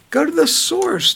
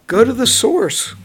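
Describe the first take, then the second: First: Higher emphatic repeat. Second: Said in the usual way. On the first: Real, not acted. Urging the listeners to read the Bible, pitched high and insistent. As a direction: Go to the source pitched much higher.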